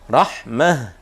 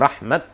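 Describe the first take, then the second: First: The word ends with a soft h sound. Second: The word ends with a t sound. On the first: The speaker calls it wrong. "Tidak boleh dibaca rahmah" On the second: The speaker calls it right. "tapi rahmat"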